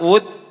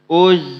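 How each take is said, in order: First: It ends in a stopped d sound. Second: It ends in a buzzing z with more air. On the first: The speaker calls it wrong. "Jangan dibaca ud" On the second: The speaker calls it right. "Berarti anginnya lebih banyak dia"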